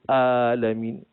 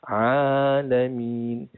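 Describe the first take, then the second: First: It begins with a light glottal stop. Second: It begins with a slightly pressed pharyngeal sound. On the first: It means the sick people. The speaker calls it wrong. "dia tak tekan huruf ain tersebut" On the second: It means all the worlds. The speaker calls it right. "huruf ain kena tekan sikit"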